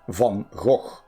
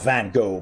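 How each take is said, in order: First: The name is said with its harder, original sounds. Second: The name is said with simpler, easier sounds. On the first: The speaker calls it right. "Or actually" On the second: The speaker calls it wrong. "It's not Van Gogh, but obviously that's easier to pronounce"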